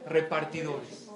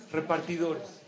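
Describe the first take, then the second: No difference in how they are said.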